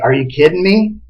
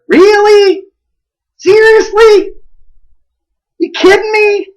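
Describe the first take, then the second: First: Said in the usual way. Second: High-pitched, disbelieving questions; much higher, astonished "no way" tone; incredulous tone. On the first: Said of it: "We're not really saying". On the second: Shown as a demonstration. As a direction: squeal it in mock disbelief. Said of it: "change the meaning of a word with our tone of voice".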